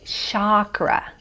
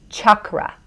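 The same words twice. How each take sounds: First: "chakra" as SHAH-kra, open ah; US pronunciation. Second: "chakra" as CHUK-ra, short uh vowel; Sanskrit pronunciation. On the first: Guest shows how the US says it, SHAH-kra "chakra". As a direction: say "chakra" with soft sh and long ah. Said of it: "in the U S they say chakra". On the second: Guest demonstrates Sanskrit in American accent, CHUK-ra "chakra". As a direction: say "chakra" with hard ch and uh. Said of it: "like an uh". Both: Shown as a demonstration.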